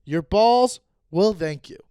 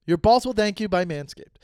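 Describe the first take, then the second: First: Slow, loud slogan delivery; slogan read. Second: Said in the usual way. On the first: Shown as a demonstration. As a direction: announce the slogan slowly. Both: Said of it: "Manscaped is brought to you by".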